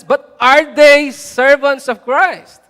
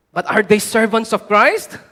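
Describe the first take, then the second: First: "But are they servants of Christ" loud, very slow and higher; "servants of Christ" drawn out forcefully; emphatic challenge. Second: Said in the usual way. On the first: Acted. Climactic repeat of the key question.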